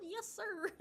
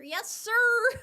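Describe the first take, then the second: First: High, giggly yes-sir at normal volume; pitched-up reply between laughs; performed on request. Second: Loud, high-pitched yes-sir; exaggerated, playful shouted response; performed on request. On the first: Pretend. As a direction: repeat it high and playful, without shouting. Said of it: "me to say it like that". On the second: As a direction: belt it out high, stretching the sir. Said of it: "Can you say yes, sir?".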